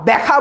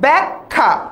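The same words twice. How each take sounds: First: No extra k sound comes before the kh. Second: An extra k sound comes before the kh. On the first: The speaker calls it wrong. "ব্যাখ্যা বলবো না" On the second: The speaker calls it right. "উচ্চারণের সময় এখানে একটা ক চলে আসে"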